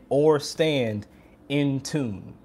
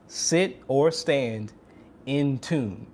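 First: Said in the usual way. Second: Slow, spell out "Sit or stand in tune" word by word; slow, deliberate repeat. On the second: Shown as a demonstration. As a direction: lay each word down slowly for emphasis. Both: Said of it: "the last tip is".

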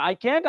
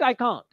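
First: CAN'T with the "a" of cat; American pronunciation. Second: CAN'T as "kahnt", long vowel; British pronunciation. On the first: Teacher quizzing students on pronunciation, American "a" in CAN'T. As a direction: offer CAN'T the American "kant" way. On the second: Teacher quizzing students on pronunciation, British "ah" in CAN'T. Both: Shown as a demonstration. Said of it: "कैसे बोलूँगा".

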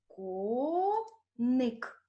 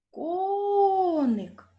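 First: Коник as two slow, separated syllables; split into syllables. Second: Коник called high and loud, long stressed о; calling the word. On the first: Teacher dividing Коник for pupils, split into syllables. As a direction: hold Ко, pause, then ник. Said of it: "Ділимо друге слово". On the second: Teacher finding the stress in Коник, calling it out. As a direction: call out Коник, stretching the first syllable. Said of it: "Покличемо". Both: Shown as a demonstration.

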